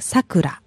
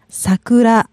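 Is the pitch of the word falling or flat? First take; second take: falling; flat. First: The pitch drops within the word. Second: The pitch stays level across the word. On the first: It is a person's name. "for name, it goes down like Sakura" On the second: It means cherry blossom. "It's kind of flat"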